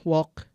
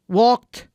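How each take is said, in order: First: "walk" with no t at the end; learner's mispronunciation. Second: "walked" high and loud, ending in t; native speaker's correction. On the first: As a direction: repeat "walk" wrongly, dropping the final t. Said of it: "bukan walk, walked". ("walk" tanpa bunyi t di akhir) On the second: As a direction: correct it to "walked" with an emphatic final t. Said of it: "disuruh benerin". ("walked" tinggi dan lantang, t jelas) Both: Acted.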